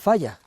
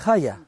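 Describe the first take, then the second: First: The word begins with an F sound. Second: The word begins with a breathy H sound. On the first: This is how it is said in Ponga. "dicenlo con F" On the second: This is how it is said in Amieva. "dicenlo ya con la H aspirada"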